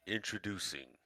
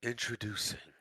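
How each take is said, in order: First: Low, soft movie-trailer voice; a hushed, deep announcer intro. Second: Announcer voice. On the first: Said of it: "let me do that again". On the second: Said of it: "give me your best introducing line". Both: Shown as a demonstration.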